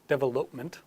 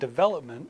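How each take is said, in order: First: The stress is not on the second syllable. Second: The stress is on the second syllable. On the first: The speaker calls it wrong. "they say development instead of development" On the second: The speaker calls it right. "you hear the stress on the second syllable"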